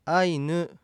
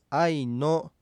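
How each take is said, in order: First: あいぬ, slow, ending in "nu"; pronounced as written. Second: あいの ending in a clear "no"; old-text pronunciation. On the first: Teacher giving today's pronunciation, あいぬ with final "u". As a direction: finish あいぬ slowly on a Japanese "u". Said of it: "書かれた文字のまま発音しても". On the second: Teacher citing old documents' spelling, あいの with final "o". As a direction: finish あいの with an "o" vowel. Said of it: "古い文献では". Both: Shown as a demonstration.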